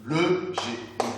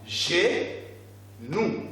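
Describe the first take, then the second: First: "le genou" joined, no gap between syllables; "genou" said without cutting ge from nou; straight through the word. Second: "genou" split as ge, long pause, nou; "genou" chopped into two drawn-out beats; syllables cut apart. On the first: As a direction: read "genou" as one whole word. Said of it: "Vous allez tout droit au mot". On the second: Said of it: "il ne faut pas entrecouper les syllabes". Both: Shown as a demonstration.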